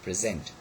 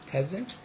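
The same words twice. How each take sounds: First: The stress is on the second syllable. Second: The stress is on the first syllable. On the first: It is used as a verb. "and the second in the verb" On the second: It is used as an adjective. "the first syllable is stressed in adjective"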